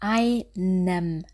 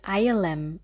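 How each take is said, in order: First: The middle consonant is an n sound. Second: The middle consonant is an l sound. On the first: The speaker calls it right. "Auch bei dem Wort einem" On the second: The speaker calls it wrong. "dass nicht daraus wird eilem"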